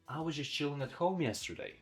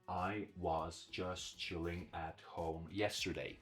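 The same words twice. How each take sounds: First: Some words are reduced and said shorter. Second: Every word gets equal stress and length. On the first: The speaker calls it right. "I reduced some of the words. I made them shorter" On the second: The speaker calls it wrong. "If I give equal amount of stress to every word, I'll sound like this"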